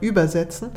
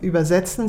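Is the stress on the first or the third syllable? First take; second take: first; third. First: The stress is on the first syllable. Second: The stress is on the third syllable. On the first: It means ferrying across by boot to the other shore. "auch wenn man die Betonung da leicht verschieben muss" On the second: It means translating between languages. "Also nicht mehr übersetzen"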